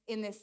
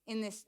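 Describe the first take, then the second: No difference in how they are said.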